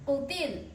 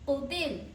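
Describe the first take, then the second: No difference in how they are said.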